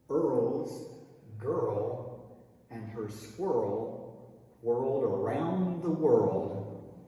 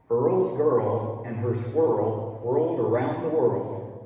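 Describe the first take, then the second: First: The sentence is said at a slower pace. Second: The sentence is said at a faster pace.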